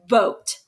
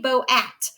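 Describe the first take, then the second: First: The vowels blend into one long O, one syllable. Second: The two vowels are sounded separately, two syllables. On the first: The speaker calls it right. "We're going to say boat" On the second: The speaker calls it wrong. "We're not going to say bow at"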